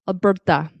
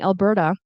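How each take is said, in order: First: The T is made with a tense tongue. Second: The T is made with a relaxed tongue. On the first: The speaker calls it wrong. "it's really pushing against the, the teeth" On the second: The speaker calls it right. "pronouncing it like a Canadian or an American"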